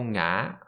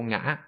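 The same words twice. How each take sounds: First: A drawn-out tone gliding gently up to high pitch. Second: A short tone dropping fast, then rising sharply. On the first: This is the southern way of saying it. "we pronounce the dấu ngã like a dấu hỏi. So I would say" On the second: This is the northern way of saying it. "rather than"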